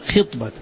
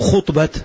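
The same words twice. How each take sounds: First: The first vowel is an i sound. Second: The first vowel is not an i sound. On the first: The speaker calls it right. "انتبه بالكسر" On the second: The speaker calls it wrong. "مو خطبة"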